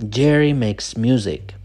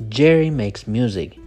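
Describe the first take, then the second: The two takes are said the same way.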